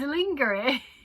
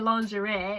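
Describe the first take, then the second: First: The word is said just as it is spelled. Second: The word is not said as it is spelled. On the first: The speaker calls it wrong. "It says lingerie" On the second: The speaker calls it right. "No way do you say lingerie"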